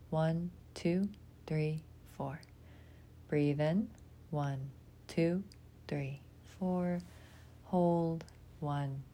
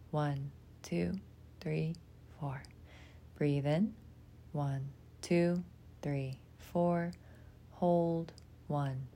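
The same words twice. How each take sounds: The two takes are said the same way.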